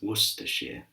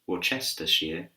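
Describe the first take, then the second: First: The word is shortened, with syllables dropped. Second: Every written syllable of the word is pronounced. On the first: The speaker calls it right. "but it's" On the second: The speaker calls it wrong. "It's not uh"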